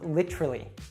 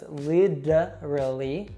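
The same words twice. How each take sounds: First: The word is shortened and a syllable dropped. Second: The middle T is a soft flap sound. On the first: "or we'll even reduce it" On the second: "with that American T we saw earlier"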